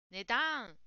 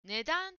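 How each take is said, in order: First: Imitating English-accented 値段 with a strong だ; learner's English-accent 値段; English-like pronunciation. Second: 値段 in flat Japanese pitch; correct pronunciation. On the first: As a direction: mimic the learner's English-style 値段, stressed だ. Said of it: "英語みたいな発音". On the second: Shown as a demonstration. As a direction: model 値段 with even syllables. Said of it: "答えの文の「値段」".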